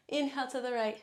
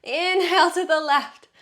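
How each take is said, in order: First: Said in the usual way. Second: Loud. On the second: Shown as a demonstration. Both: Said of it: "You're probably sick of hearing me say exhale".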